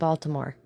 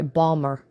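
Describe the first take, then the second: First: All three syllables of the name are said. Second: The name is squeezed into two short syllables.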